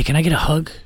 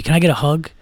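First: Said in the usual way. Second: Mildly creepy imitation; real creepy. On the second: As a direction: ask like a creep, lightly hammed. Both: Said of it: "like, real creepy".

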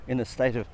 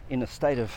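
Both takes have the same delivery.

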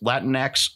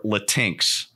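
First: "Latinx" said as LAT-in-ex; first pronunciation. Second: "Latinx" said as la-TINKS; alternative pronunciation. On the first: Host unsure how it's pronounced, "Latinx" as LAT-in-ex. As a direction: stress the first syllable of "Latinx", end on "ex". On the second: Host offers the other pronunciation, "Latinx" as la-TINKS. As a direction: rhyme the end of "Latinx" with "thinks", two syllables. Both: Shown as a demonstration. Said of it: "not sure, actually, if it's pronounced".

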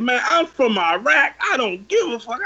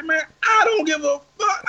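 First: Retold defiant scream. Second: High, strained retold shout; defiant shout back. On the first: Driver screaming where he's from, mock defiance. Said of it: "had a nigga scream a hood at me". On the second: Him shouting back at the driver, high and defiant. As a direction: reenact yelling it back way up high.

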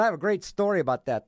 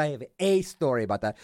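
First: Quick line with GREAT stressed. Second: A said as a stressed "ay". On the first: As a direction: lean on GREAT, talking it up. Sets up claim he then corrects. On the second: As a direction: lean on A to downgrade the claim. Corrects great story to a story. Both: Real, not acted.

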